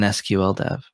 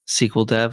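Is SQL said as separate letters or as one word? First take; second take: letters; one word. First: SQL is said as three separate letters. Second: SQL is said as one word, sequel. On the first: "or an S Q L dev?" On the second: "is it a S Q L dev"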